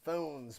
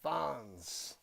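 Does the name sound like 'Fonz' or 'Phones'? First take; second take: Phones; Fonz. First: The name is said with a long 'o' vowel. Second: The name is said with a short 'o' vowel. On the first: This is how others say the name. "That's how they're pronouncing the name" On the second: This is the speaker's own nickname version. "but I'm calling them Fonz"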